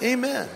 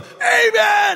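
First: It is said calmly and quietly. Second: It is screamed very loudly.

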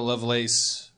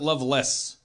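First: The last syllable sounds like 'lace'. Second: The last syllable sounds like 'less'. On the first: "Ada Lovelace" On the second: "Or is it Loveless?"

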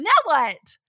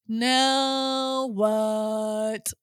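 First: It sounds excited and bouncy, like Tigger. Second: It sounds gloomy and glum, like Eeyore.

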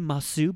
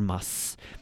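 First: The final u is clearly pronounced. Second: The final u is dropped, ending in s. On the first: It sounds more polite. "it does sound a little more polite and quite more effeminate" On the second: It sounds casual and comfortable. "they'll simply cut off the u and add the s instead"

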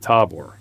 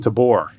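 First: The stress is on the first syllable. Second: The stress is on the second syllable. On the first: The speaker calls it right. "where it's actually Tabor" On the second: The speaker calls it wrong. "you want to say Tabor"

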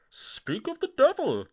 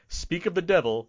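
First: It is said in a put-on villain voice. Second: It is said in a plain, ordinary voice.

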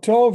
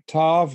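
First: It is said with the modern Hebrew vowel. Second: It is said with a Yiddish-style vowel. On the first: "Tov is the modern Hebrew pronunciation and the classic Hebrew" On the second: "But it is said Tov, let's say in New York City"

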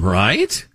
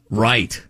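First: The voice rises at the end, like a question. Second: The voice falls at the end.

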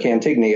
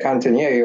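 First: The name is said with an American pronunciation. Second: The name is said with a French-style pronunciation.

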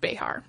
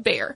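First: It has two syllables with a throaty middle sound. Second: It has one syllable, like the English animal. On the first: This is the original Spanish form of the name. "pronounced Béjar" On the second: This is the form softened under German influence. "softened to bear"

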